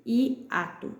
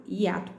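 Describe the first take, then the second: First: "hiato" split i - ato; a gap after the first vowel of "hiato"; separated syllables. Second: Said in the usual way. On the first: Shown as a demonstration. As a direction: sound out i, then ato. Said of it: "Elas estão em sílabas separadas". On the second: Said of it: "hiato com H".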